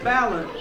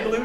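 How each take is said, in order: First: "balloon" mispronounced for laughs; "balloon" comically said as BAL-un; comic mispronunciation. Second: Said in the usual way. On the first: Pretend. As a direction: stress the first syllable of "balloon". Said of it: "I said balloon". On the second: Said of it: "I didn't just say balloon".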